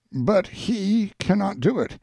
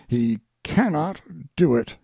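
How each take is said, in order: First: "cannot" lifted high and leaned on; stress on cannot. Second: Said in the usual way. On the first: Acted. Speaker insisting the guest cannot show himself, "cannot" pitched high. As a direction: push up hard on "cannot".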